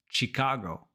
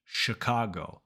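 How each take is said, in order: First: Chicago with an ee in the first syllable; Spanish-style Chicago. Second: Chicago as "shuh-KAH-go"; English Chicago. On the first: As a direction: say "chee-KAH-go" for Chicago. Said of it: "In Spanish, you might have learned it". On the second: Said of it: "but in English, it's". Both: Shown as a demonstration.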